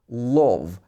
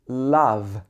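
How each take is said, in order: First: The L is made with the tongue far back. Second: The L is made with the tongue at front. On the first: The speaker calls it wrong. "So your tongue is much further back. Love. That's not right" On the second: The speaker calls it right. "It should be love, love. Tongue is at the front of your mouth"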